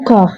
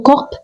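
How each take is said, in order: First: No final consonant is pronounced. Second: Only the final p is pronounced. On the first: The speaker calls it right. "Les lettres P et S à la fin sont totalement muettes" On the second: The speaker calls it wrong. "ne dites jamais ... corp"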